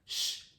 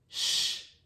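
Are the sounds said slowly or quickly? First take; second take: quickly; slowly. First: The two sounds are said quickly, close together. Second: The two sounds are said slowly, far apart.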